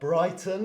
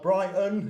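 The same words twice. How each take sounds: First: It is said in a careful, clear voice. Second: It is said in a broad British accent. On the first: "as my teacher voice would say" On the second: "not Brighton in my British accent"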